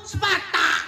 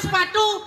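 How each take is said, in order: First: The word ends with an 'a' vowel. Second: The word ends with a 'u' vowel. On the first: "Itu serba A" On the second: "Nganggo sepatu"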